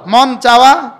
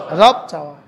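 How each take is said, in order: First: মন চাওয়া called out louder, ending drawn; louder repeat. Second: রব চাওয়া dropped low and firm; lower answer. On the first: Preacher making the congregation repeat মন চাওয়া louder. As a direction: call out মন চাওয়া loudly to the crowd. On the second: Preacher contrasting রব চাওয়া with মন চাওয়া, low and firm. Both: Shown as a demonstration. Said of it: "বলেন".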